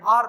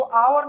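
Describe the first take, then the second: First: आर said as one long vowel, aar, with no v sound; the right आर, a single smooth aar; correct pronunciation. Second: आवर said as two syllables, aa-var, with a v sound; the mistaken आवर with a clear v in the middle; wrong pronunciation. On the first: Teacher giving students the correct form, आर as one vowel. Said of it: "आर पढ़ना चाहिए". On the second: Teacher showing students the wrong way, आवर with a sounded v. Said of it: "इसको आवर नहीं पढ़ना चाहिए". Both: Shown as a demonstration.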